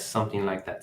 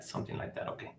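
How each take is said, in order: First: Said in the usual way. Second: Breathy under-the-breath repeat; muttered whisper, almost no voice; whispered to self. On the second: Real, not acted. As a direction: whisper it to yourself.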